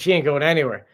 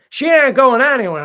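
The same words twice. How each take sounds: First: Said in the usual way. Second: Raised, much louder voice; loud insistence. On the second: Real, not acted. Host insisting to viewers about Pearl, loud emphatic repeat. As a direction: hammer it home, loud and high.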